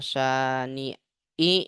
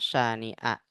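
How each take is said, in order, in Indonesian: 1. Kata syani'a diakhiri dengan vokal i. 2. Kata syani'a diakhiri dengan vokal a. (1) "Nggak boleh" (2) "Harus dibaca syani'a"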